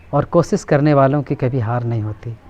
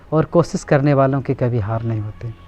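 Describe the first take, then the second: No difference in how they are said.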